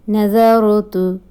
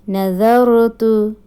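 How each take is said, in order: No difference in how they are said.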